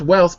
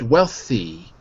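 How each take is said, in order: First: The final 'ee' vowel is left off. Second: The word ends with a clear 'ee' vowel. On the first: The speaker calls it wrong. "So not wealth" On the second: The speaker calls it right. "but wealthy"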